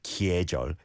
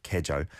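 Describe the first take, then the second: First: 계절 with an exaggerated 'kye' glide; overpronounced. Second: 계절 with a simple 'ke', no glide; not overpronounced. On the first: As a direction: lean on the y in 계절, k-yeh. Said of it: "you don't overpronounce that like that". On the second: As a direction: say 계절 lightly as 'ke-jeol'. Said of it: "It's just like". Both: Shown as a demonstration.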